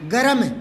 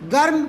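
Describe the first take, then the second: First: The r is full, with a vowel before it. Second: The r is half, clustered with the m. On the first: "एक में तीनों बराबर बोलूं, गे रे में गरम" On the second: "रे आधा होगा तो जगह गर्म"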